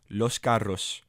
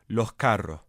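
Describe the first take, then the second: First: The syllable-final s sounds are fully pronounced. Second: The syllable-final s sounds are aspirated or dropped.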